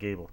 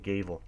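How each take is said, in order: First: The middle consonant is a B sound. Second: The middle consonant is a V sound. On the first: "I'm not saying Gable either" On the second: "I'm saying Gavel with a V"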